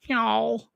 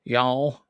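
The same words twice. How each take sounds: First: "Y'all" drawn out high in a hammed-up Southern drawl. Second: Southern drawl. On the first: Host teasing viewer Bob about the South, a hammed-up high "Y'all". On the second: Retold or imitated. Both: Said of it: "you were in the South".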